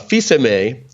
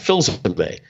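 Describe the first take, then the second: First: It is pronounced the French way. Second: It is pronounced the American way. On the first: "is the way my father pronounced it" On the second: "I made an American version of that"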